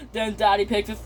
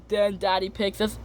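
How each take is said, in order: Both takes have the same delivery.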